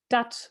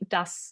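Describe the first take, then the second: First: It is said with a final t sound. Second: It is said with a final s sound.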